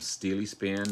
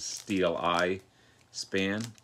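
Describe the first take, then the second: First: The second syllable sounds like 'ee'. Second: The second syllable sounds like 'eye'. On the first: The speaker calls it wrong. "I mispronounced the, their their name for the longest time" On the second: The speaker calls it right. "but this is Steel Eye Span"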